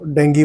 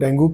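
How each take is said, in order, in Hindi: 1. शब्द का अंत 'ee' स्वर से होता है। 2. शब्द का अंत 'oo' स्वर से होता है। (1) "करेक्ट प्रोनाउंसिएशन इसका जो है वो डेंगी वायरस है" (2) "आम जनता इसको डेंगू करके ही बोलती है"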